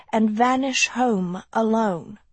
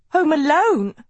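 First: Said in the usual way. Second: High, loud stunned disbelief; as if just shot; shocked gasp. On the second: A narrator's reading. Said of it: "Sophie gasped as if she'd been shot".

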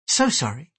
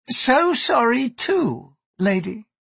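First: Brief, understated polite regret; polite apology. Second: High, slow, drawn-out apology; pointed echo. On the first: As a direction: apologise briefly in a restrained lady's voice. Mariko politely refuses Gyoko. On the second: Gyoko echoes the apology back. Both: Acted.

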